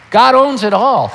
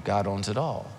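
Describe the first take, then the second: First: "God owns it all" louder, higher, falling hard on "owns"; preacher booming "God owns it all"; emphatic proclamation. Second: "God owns it all" much lower and softer; preacher softly repeating "God owns it all"; quiet restatement. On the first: Repeated key phrase, loud. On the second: Repeated key phrase, quiet. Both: Real, not acted.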